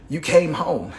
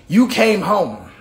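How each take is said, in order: First: Said in the usual way. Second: Slow, louder "You came home" with each word weighed; emphatic repeat. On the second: Acted. Repeating God's words for emphasis.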